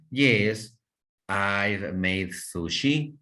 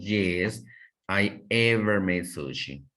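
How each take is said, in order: First: Slow, careful model sentence with sushi rising; slow teacher demo of the correct form; correct model answer. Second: Mistaken sentence with ever stressed, said as what not to say; teacher demo of the incorrect form, ever emphasised; wrong example. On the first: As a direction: spell out the right answer slowly for learners. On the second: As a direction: show the wrong use of ever, leaning on ever. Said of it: "pero no decimos". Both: Shown as a demonstration.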